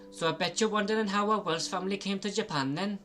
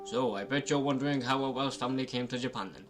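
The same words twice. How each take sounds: First: It is said in a Welsh accent. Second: It is said without a Welsh accent.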